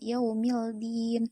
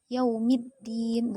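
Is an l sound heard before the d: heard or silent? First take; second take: heard; silent. First: A clear l is pronounced before the d. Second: The l is silent, merged into a double d. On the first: The speaker calls it wrong. "bukan yaumildin" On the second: The speaker calls it right. "alif lamnya tidak terbaca. Langsung, langsung yaumiddin"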